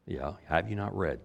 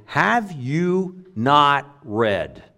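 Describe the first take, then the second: First: Said in the usual way. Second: Slow, drawn-out mock question; sarcastic. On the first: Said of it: "Who's he speaking to?". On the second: Jesus poking at the scholars, lightly sarcastic. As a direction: let a little sarcasm drip from it. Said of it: "a little bit of sarcasm in his voice".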